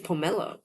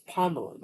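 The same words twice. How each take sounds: First: It is said the Malaysian English way. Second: It is said the standard dictionary way. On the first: The speaker calls it wrong. "which is wrong, apparently ... just Malaysian English pronunciation" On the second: The speaker calls it right. "but it's pomelo"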